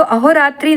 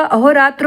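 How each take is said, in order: First: अहोरात्रि ending in a long ee; wrong form. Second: Said in the usual way. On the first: Shown as a demonstration. Teacher rejects a misspelling, अहोरात्रि ending in -tri. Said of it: "अहोरात्रि नहीं होगा". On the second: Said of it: "अहोरात्र होगा".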